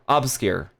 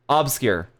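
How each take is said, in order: Both takes have the same delivery.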